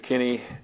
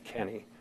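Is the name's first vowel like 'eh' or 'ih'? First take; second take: ih; eh. First: The first vowel sounds like 'ih'. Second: The first vowel sounds like 'eh'. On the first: The speaker calls it wrong. "I keep saying it with an I" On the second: The speaker calls it right. "it's E, so it's Kenny"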